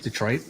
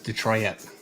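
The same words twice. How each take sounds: First: The word is said with two syllables. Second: The word is said with three syllables.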